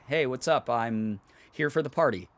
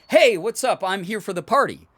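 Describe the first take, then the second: First: It is said in a restrained, subdued way. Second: It is said in a big, exaggerated way.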